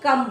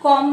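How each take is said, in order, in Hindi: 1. यह स्वर एक छोटी 'uh' ध्वनि है। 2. यह स्वर एक गोल 'o' ध्वनि है। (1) "यहाँ पर कम बोलेंगे" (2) "यहाँ पर कॉम नहीं बोलेंगे"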